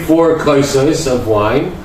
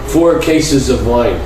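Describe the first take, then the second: First: The word for cups has a non-Litvish vowel sound. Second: The word for cups has a Litvish vowel sound. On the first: It means four cups of wine. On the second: It sounds like he drank whole cases of wine.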